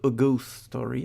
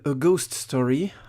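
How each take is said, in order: First: It is said with an English accent. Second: It is said with a French accent. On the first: The speaker calls it right. "on dit plutôt" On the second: The speaker calls it wrong. "à la française"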